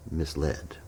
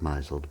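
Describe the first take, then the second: First: MISLED as "miss-LED", softly stated; softer correction, stress on the LED of MISLED; correct pronunciation. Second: MISLED as "MY-zuld"; MISLED misread as MY-zuld; wrong pronunciation. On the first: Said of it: "but it's pronounced misled". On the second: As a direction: say MISLED with a long i and a z. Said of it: "it looks like misled". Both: Retold or imitated.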